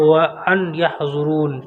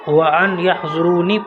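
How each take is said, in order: First: The last word ends on the n sound. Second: The last word ends with an added ee vowel. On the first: The reciter stops at the verse end. "आगे आयत करेंगे तो" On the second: The reciter continues without stopping. "आप अगर आयत नहीं करेंगे तो"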